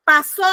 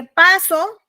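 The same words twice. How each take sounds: First: "pasó" with a loud, accented final ó; stress on final O. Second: "paso" with a strong PA; stress on first syllable. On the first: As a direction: punch the last syllable of "pasó". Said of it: "lleva acento en la O". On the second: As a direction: hit PA in "paso", leaving the o unaccented. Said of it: "no lleva acento en la O". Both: Shown as a demonstration.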